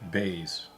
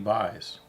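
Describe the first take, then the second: First: The vowel sounds like the word 'bay'. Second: The vowel sounds like the word 'buy'. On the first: This is how the name is actually pronounced. "they pronounce that word bays" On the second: This is how the name looks when read. "I look and I see J P buys. Did he buy stuff?"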